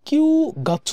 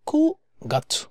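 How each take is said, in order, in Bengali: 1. প্রথম অংশটি 'kyu' উচ্চারণ হয়। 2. প্রথম অংশটি 'ku' উচ্চারণ হয়। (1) "কিউ গাছু বলে না" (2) "বলে কু গাছু"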